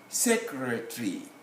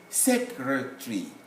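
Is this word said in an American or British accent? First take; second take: British; British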